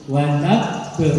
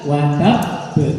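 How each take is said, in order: No difference in how they are said.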